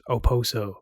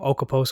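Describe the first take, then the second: First: No K sound is heard in the name. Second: A K sound is heard in the name. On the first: The speaker calls it right. "the K is silent" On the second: The speaker calls it wrong. "I used to call him Okaposo all the time"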